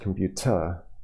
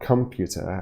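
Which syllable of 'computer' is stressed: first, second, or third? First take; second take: third; second. First: The stress is on the third syllable. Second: The stress is on the second syllable. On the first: "and it's not computer" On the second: "It's not computer"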